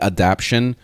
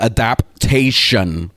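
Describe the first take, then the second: First: The word is said with three syllables. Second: The word is said with four syllables. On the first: The speaker calls it wrong. "I was calling it adaption" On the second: The speaker calls it right. "I'm gonna say it correctly now"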